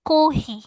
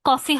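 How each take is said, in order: First: It is said the Japanese way, kohi. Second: It is said the English way, coffee. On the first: "ওটাকে একটু ডিফারেন্ট ভাবে করবে" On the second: "normally English কিভাবে কফি হয়"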